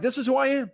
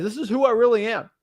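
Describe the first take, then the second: First: I pushed up high; insistent, higher stress on I; stronger stress on I. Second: I lifted and hit hard; earnest stress on I. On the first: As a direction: punch the word I much higher. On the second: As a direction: lean on the word I. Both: Real, not acted.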